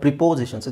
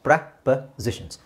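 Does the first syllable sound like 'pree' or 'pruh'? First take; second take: pree; pruh. First: The first syllable has a clear 'ee' vowel. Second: The first syllable has a short reduced vowel. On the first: The speaker calls it wrong. "ತುಂಬ ಜನ ಇದನ್ನು wrong pronounce ಮಾಡ್ತಾರೆ" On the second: The speaker calls it right. "It's ಪ್ರಪೋಸಿಷನ್ಸ್"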